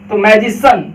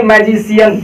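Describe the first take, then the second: First: मैजिशन said "maj-i-san"; right pronunciation. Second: मैजिशियन as "maj-i-si-yan"; wrong pronunciation. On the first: Teacher giving the correct form to the class. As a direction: say मैजिशन in three syllables. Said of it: "ना कि मैजिशियन". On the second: Teacher showing the wrong form children use. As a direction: stretch मैजिशियन to four syllables. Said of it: "बिल्कुल गलत". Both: Shown as a demonstration.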